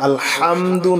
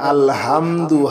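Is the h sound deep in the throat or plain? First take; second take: deep; plain. First: The h comes from deep in the throat. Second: The h is a plain, light breath. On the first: All praise. The speaker calls it right. "হা গলার ভিতরে" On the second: All torn, dirty cloth. The speaker calls it wrong. "হা যদি গলার ভিতরে না নেন"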